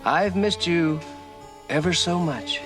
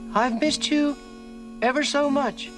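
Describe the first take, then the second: First: The voice is softer than normal. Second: The voice is softer and higher pitched. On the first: "try it with a softer voice" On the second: "Higher and softer"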